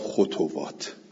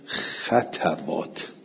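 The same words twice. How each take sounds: First: A u vowel follows the t sound. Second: An a vowel follows the t sound. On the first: "به زمه ها" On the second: "به فتل خواه و تا"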